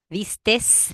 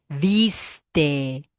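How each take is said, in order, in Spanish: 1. La palabra termina con un sonido s de más. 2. La palabra termina sin sonido s. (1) "Agregar esa S que no va" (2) "No, es viste"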